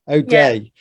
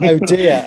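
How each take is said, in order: First: The name ends with a 'day' sound. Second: The name ends with a 'dear' sound. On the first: The speaker calls it right. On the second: The speaker calls it wrong.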